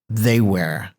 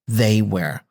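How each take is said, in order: Both takes have the same delivery.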